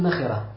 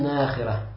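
First: The vowel after the n is short. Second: The vowel after the n is long. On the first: This is the commonly known reading. "То есть мы читаем как" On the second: This is an alternative transmitted reading. "от ибн Аббаса пришло достоверно, что он читал"

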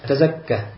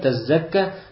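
First: The z sound is single and short. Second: The z sound is doubled and held longer. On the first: It means purifying oneself. The speaker calls it right. "говорится просто" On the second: It would mean giving out charity. The speaker calls it wrong. "если мы скажем с таждидом"

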